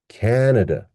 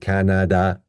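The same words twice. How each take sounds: First: The last two vowels are weak and reduced. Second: The last two vowels are full and clear. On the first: The speaker calls it right. "we will change this vowel to uh" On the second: The speaker calls it wrong. "that's not where I come from"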